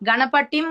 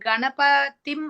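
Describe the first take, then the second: First: The middle consonant is a hard retroflex 't'. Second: The middle consonant is a soft dental 'th'. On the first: The speaker calls it wrong. "గణపటిం అంటే చాలా భయంకరంగా ఉంటుందది" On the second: The speaker calls it right. "టీహెచ్ఐ గదా"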